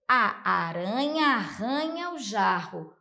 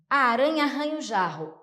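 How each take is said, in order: First: It is said at a normal speed. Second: It is said quickly.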